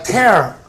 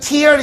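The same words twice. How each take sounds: First: It is pronounced as the verb for ripping. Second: It is pronounced as the noun for crying. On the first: It means to rip apart. "동사로 쓰였을 때는 얘가 tear라는 발음이에요" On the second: It names a drop from the eye. "명사일 때는 tear 이래서 눈물이 되죠"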